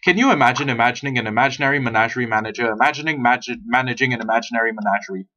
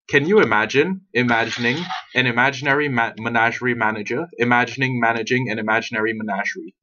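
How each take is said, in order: First: It is said at a fast pace. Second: It is said at a slow pace.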